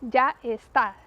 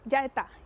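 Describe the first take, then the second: First: The s sound is kept and words are separate. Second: The s sound is dropped and words run together. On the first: This is the standard pronunciation. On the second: This is how it is said in southern Spain.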